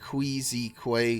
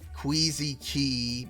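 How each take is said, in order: First: The last word is pronounced like 'kway'. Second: The last word is pronounced like 'key'.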